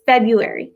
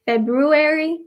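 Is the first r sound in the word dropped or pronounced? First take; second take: dropped; pronounced. First: The first r sound is dropped. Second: The first r sound is clearly pronounced. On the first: "if you listen to Americans say February, it's February" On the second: "if you go to pronounce that, it's Febu February, ... That sounds weird"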